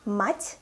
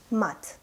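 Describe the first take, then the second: First: "Мать" ending on a palatalized т; soft final consonant. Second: "мат" ending on a hard т; no softening on the t of "мат"; hard final consonant. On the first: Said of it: "with a soft sign in the end". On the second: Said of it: "If we don't have a soft sign". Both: Shown as a demonstration.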